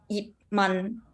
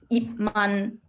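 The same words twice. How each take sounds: Both takes have the same delivery.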